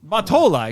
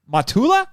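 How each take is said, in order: First: Mottola with a long OH in the middle; corrected name. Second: Mottola with OO in the middle, rising; mispronounced name. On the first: Correcting herself to co-host, Mottola said as mah-TOH-lah. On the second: Trying the chairman's name, Mottola mispronounced as mah-TOO-lah. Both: Real, not acted. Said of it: "excuse me".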